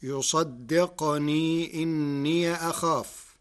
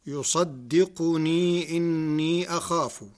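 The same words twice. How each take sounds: First: يصدقني as yusaddiqni, no vowel after the q; slow recitation, يصدقني with sukun on qaf and إني ending in "ya"; still qaf. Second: Said in the usual way. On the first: Shown as a demonstration. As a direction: stop the qaf in يصدقني, then say إني as inniya. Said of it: "بسكون القاف". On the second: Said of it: "قرأ ورش كلمة يصدقني".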